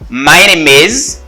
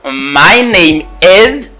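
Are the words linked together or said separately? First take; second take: linked; separately. First: The words run together, linking name into is. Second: The words are said separately, without linking. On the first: "je dis my name is. Il y a la liaison" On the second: "Au lieu de dire"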